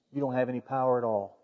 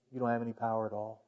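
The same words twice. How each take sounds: First: A hushed, steady answer to Pilate; Jesus calmly correcting Pilate, hushed; quiet, firm reply. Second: Much softer, quick echo of the line; Jesus's answer repeated, fading to a hush; near-whispered repeat. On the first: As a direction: say it low and settled, no force. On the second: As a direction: let it fall away to almost nothing. Repeated, fainter and faster. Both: Retold or imitated.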